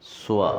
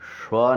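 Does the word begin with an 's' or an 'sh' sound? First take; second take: s; sh. First: It begins with an 's' sound. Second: It begins with an 'sh' sound. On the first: The speaker calls it right. "प्रथम चरण में तीन सकार है" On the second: The speaker calls it wrong. "स्व नहीं"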